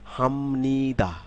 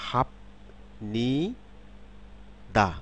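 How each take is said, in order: First: Said as one word with an m sound. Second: Said syllable by syllable with a p sound. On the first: "শব্দ যখন শব্দে উচ্চারিত হবে" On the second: "আমি যদি সিলেবল অনুসারে উচ্চারণ করি"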